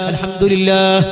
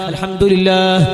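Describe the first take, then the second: First: The word is said with every sound clear. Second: The word is said with every sound clear.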